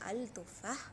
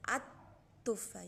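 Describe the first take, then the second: First: The article keeps a clear L before the T. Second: The article has no L; the T is doubled. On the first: The speaker calls it wrong. "You won't say al tufa" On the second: The speaker calls it right. "So you say at tufa"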